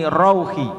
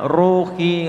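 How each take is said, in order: First: "rauhi" with a short rau gliding into u; bacaan pendek. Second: "ruhi" with a long held u; ru panjang. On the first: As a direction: say "rauhi" higher, without lengthening. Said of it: "fathah diikuti wawu sukun bacaannya". ("rauhi" dengan rau pendek) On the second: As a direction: draw out the RU in "ruhi". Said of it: "dibaca panjang". ("ruhi" dengan ru dipanjangkan) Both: Shown as a demonstration.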